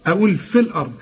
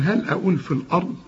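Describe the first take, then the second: First: "في الأرض" run together, the ya of "في" dropped. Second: "في" said with a full long ya before "الأرض"; wrong take. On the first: Quran teacher showing the student "في الأرض" joined, no ya. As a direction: glide "في" straight into "الأرض" with no ya. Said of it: "لكن هل أقول في الأرض". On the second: Teacher showing the student the wrong "في الأرض" with long ya. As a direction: hold the ya of "في" as if it were kept. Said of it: "تنفع في الأرض دي فل". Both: Shown as a demonstration.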